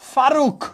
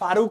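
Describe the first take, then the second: First: The word ends on a bare consonant. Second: The word ends with an added vowel sound. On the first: "কয়ের সাথে কিন্তু কোনো এখানে স্বর উচ্চারিত হচ্ছে না" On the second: "তাহলে হসন্ত হইতো না"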